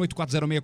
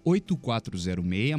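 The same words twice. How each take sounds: First: The number is said at normal speed. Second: The number is said slowly.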